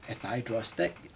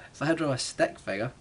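First: Voice went weird. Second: Said in the usual way. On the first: Real, not acted. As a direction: voice cracks mid-phrase on draw. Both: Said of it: "my voice went weird there".

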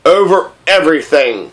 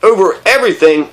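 First: Understated royal certainty; magnificent simplicity. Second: "everything" lightly raised in a query; questioning repeat. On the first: King answering what he rules, simply and grandly. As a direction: state it simply, mildly grand. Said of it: "said the king with magnificent simplicity". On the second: Prince querying the king's answer, questioning "everything". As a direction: ask back "everything", mildly incredulous. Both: A narrator's reading.

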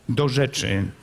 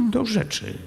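First: Said in the usual way. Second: Calm prince. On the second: A narrator's reading. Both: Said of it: "rzekł spokojnie książę Bogusław".

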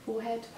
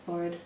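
First: "Forehead" said as FORE-head; spelling pronunciation. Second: "forehead" said as FORRID, rhyming with horrid; traditional pronunciation. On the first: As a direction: say "Forehead" as two words, fore and head, softly. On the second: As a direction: say "forehead" softly without the h, as FORRID. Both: Shown as a demonstration. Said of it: "you forehead or forehead".

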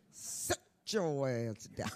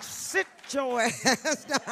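First: Mama's scolding. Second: Loud, slow, drawn-out scolding; mock church mama yelling at latecomers to sit down; church mama's loud scold. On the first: Retold or imitated. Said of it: "Like my mama used to say". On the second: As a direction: belt it like a church mother shushing latecomers. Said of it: "that's how they said it".

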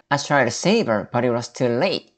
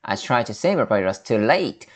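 First: Slow, broken into two chunks for the tune; teacher slowly models the phrase in chunks; chunked phrasing. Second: Slow chunked teacher model; slow teacher demo split into two chunks; chunked phrasing. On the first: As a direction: chunk it so the tune falls into place. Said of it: "이런 식으로 끊어서 발음하면 억양도". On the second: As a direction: break it into chunks, slowly. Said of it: "이렇게 한번 덩어리 만들어보세요". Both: Shown as a demonstration.

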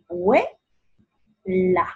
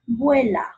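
First: "vuela" split, VUE high, long pause, LA; syllable by syllable. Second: Said in the usual way. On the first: Shown as a demonstration. Teacher separating "vuela" for pupils, syllable by syllable. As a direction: break "vuela" in two, lifting the first beat. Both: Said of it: "separa en sílabas".

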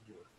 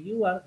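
First: "you are" squeezed into one syllable, you're; contracted form. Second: Said in the usual way. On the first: Shown as a demonstration. Teacher demonstrating the English contraction, "you are" merged into you're. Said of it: "lo puedes colocar también la versión". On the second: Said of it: "En vez de decir you are".

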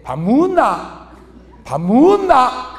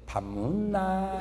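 First: Slow, curt Gyeongsang question to the wife; gruff to wife. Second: Much softer, slow and coaxing; sweet to bar hostess. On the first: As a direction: toss it off bluntly, slowly. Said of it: "마누라한테 밥 먹었냐고 물어볼 때". (아내에게 무뚝뚝하게 묻는 경상도 남편) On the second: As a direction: croon it softly to charm her. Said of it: "술집 여자한테 물어볼 때". (술집 여자에게 달콤하고 부드럽게) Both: Shown as a demonstration.

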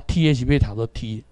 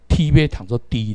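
First: T kept as an aspirated T; T read as T. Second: T given the sound of D; T read as D. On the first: Teacher correcting the spelling system, T read as T. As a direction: read T with its own T sound. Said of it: "迄T要读作D啦". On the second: Teacher criticising the ministry's system, T read as D. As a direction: read T as an unaspirated D. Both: Shown as a demonstration.

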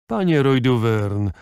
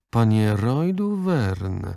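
First: Haughty. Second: Panie Roy Duvern, each word slow and weighted; stern old lady stressing Panie Roy Duvern word by word; stressing every word. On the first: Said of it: "rzekła wyniośle". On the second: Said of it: "podkreślając każde słowo". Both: A narrator's reading.

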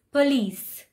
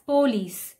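First: Police with a reduced p'lice; police light o. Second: Police with a full po. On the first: Teacher modelling police. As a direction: say police with a weak o. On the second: Teacher showing the wrong police. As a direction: say police with the o stressed. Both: Shown as a demonstration. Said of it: "the O is not stressed that much".

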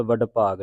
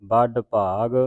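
First: ਵੱਡ ਭਾਗ opening with v, vadd; ਵੱਡ with a loose v in place of b; v-sound mispronunciation. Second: ਵੱਡ ਭਾਗ said as badd bhag; ਵੱਡ with an initial b, not v; b sound. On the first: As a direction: demonstrate ਵੱਡ wrongly begun with v. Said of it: "ਨਹੀਂ ਕਰਨਾ". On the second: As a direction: start ਵੱਡ firmly on b. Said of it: "ਬੱਬੇ ਦੇ ਨਾਲ". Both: Shown as a demonstration.

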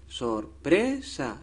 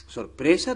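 First: Sorpresa slowly split, sor-pre-sa, leaning on PRE; syllable by syllable. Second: Said in the usual way. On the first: Shown as a demonstration. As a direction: sound out "Sorpresa" slowly to find the stressed PRE. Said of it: "es la penúltima". (Sorpresa despacio, marcando cada sílaba) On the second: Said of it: "Sorpresa tampoco".

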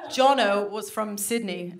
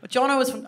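First: Said in the usual way. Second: Put-on slipping into an Australian accent; mock-accidental Aussie accent. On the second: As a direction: let an Australian accent creep in helplessly. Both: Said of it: "I can't, I'm, it's happening already".

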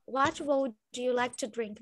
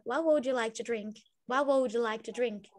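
First: Pronúncia britânica, palavras separadas; What would bem separado, britânico; British accent. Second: Pronúncia americana, tudo junto; What would ligado, americano; American accent. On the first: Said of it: "falaram de um jeito britânico". (sotaque britânico) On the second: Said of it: "fica no jeito americano". (sotaque americano) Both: Shown as a demonstration.

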